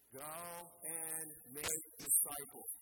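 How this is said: It is said with strong conviction.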